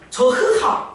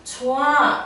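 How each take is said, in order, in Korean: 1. 가운데에 h 소리가 나요. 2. 가운데에 h 소리가 나지 않아요. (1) "저흐하 이러지 않잖아" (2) "좋아 이럴 때"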